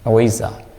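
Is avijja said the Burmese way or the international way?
Burmese. It is said the Burmese way. "our pronunciation is avijja"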